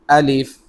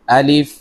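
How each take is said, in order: No difference in how they are said.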